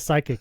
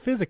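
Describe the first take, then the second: First: The word begins with an s sound. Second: The word begins with an f sound. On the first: The speaker calls it right. "eventually I heard someone say psychic" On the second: The speaker calls it wrong. "I always thought the attack name was Physic because I knew physical"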